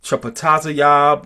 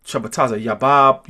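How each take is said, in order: First: Chapataza yab ending in one syllable, "yahb"; short-ending pronunciation. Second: Chapataza yabab ending in two syllables, "ya-BAHB"; long-ending pronunciation. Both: Shown as a demonstration. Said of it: "if you say".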